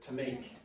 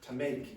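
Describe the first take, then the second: Both takes have the same delivery.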